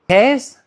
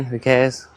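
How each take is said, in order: First: High incredulous "Cares?"; surprised echo. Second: Said in the usual way. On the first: Shown as a demonstration. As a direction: echo "Cares?" in mock disbelief. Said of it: "The handbrake cares". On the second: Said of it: "Cares? The handbrake cares".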